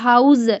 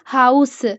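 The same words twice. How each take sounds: First: The word ends with a z sound. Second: The word ends with an s sound. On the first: The speaker calls it wrong. "यहाँ पे आप ये नहीं बोलेंगे हाउस, एंड पे आप जेड की sound" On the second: The speaker calls it right. "एस की जो साउंड होती है ना स की, वो ही आप निकालेंगे"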